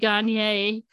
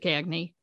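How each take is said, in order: First: Said the way outsiders expect the name. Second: Said with the local Maine pronunciation. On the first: This is how people elsewhere think it should sound. "thinking it should be Gagne" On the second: This is how people in Maine say it. "in Maine, we pronounce it Gagne"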